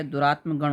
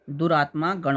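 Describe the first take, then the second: First: दुरात्मगण with short a before "gan"; correct compound form. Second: दुरात्मा गण with long aa before गण; wrong compound form. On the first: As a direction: run दुरात्मगण together, no long aa. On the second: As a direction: hold the final aa of दुरात्मा गण. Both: Shown as a demonstration. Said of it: "ये अशुद्ध है".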